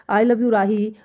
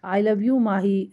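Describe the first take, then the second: First: A brisker, fuller retake; second try. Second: Very slow, drawn-out I love you; slow practice confession. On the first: Rehearsing a confession again, a brisker second attempt. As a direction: try it again with more push. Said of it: "अब फिर से try करता हूँ". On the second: Rehearsing alone before a mirror, saying it very slowly. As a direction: stretch each word out as if rehearsing. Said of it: "practice कर लेता हूँ". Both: Pretend.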